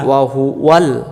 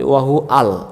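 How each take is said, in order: First: A 'w' sound links 'hu' to 'al'. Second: 'Hu' and 'al' are said without a 'w'. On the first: The speaker calls it right. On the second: The speaker calls it wrong.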